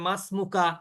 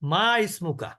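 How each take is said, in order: First: The two words run together as masmuka. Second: The two words are said apart as ma ismuka. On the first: "এটা একসাথে বলার কারণে মাসমুকা শোনা যাচ্ছে" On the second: "কিন্তু আসলে আরবিটা কি?"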